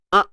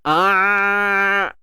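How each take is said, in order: First: The voice is held back and cut off. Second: The voice flows out too freely. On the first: "itu tahan" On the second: "jangan terlalu terlepas"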